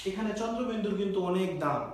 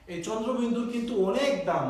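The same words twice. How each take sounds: First: Said in the usual way. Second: অনেক stretched out and punched; stress on অনেক. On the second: Shown as a demonstration. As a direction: lean hard on the word অনেক. Repeats the point with emphasis.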